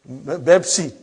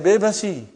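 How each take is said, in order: First: It begins with b and has two syllables. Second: It begins with b and has three syllables. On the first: This is how Arabic speakers say it. "there is no pa in Arabic language" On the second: This is how Indian speakers say it. "those Indian people say ... they say Bebasi"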